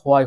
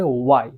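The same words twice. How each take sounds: First: "why" with an h before the w, ho-ai; wrong pronunciation. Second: "why" with a plain w, no h; h-less "why", oo-ai; correct pronunciation. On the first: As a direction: say "why" opening on a sounded h. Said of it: "এটা কিন্তু why হবে না". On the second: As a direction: say "why" as wai, rounded lips first. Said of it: "correct pronunciation হবে why". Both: Shown as a demonstration.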